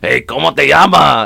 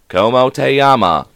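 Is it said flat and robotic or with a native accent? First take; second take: native accent; robotic. First: It is said with a lively native accent. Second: It is said in a flat, robotic voice.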